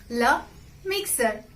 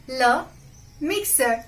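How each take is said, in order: The two takes are said the same way.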